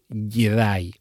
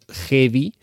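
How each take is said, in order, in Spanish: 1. La palabra se dice en su forma hablada habitual. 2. La palabra se lee en voz alta tal como está escrita. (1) "pronunciado más o menos Jedi" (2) "Escrito Jedi"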